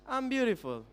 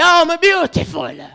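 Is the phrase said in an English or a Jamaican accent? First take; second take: English; Jamaican. First: It is said in a standard English accent. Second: It is said in a Jamaican Patois accent. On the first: "Compared to English" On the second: "try to say, I am beautiful in power"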